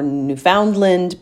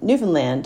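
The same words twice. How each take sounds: First: The main stress falls before the last syllable. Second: The main stress falls on the last syllable. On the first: This is how outsiders usually say it. The speaker calls it wrong. "is often pronounced as Newfoundland" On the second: This is how locals say it. The speaker calls it right. "Newfoundlanders pronounce it Newfoundland. Newfoundland, understand?"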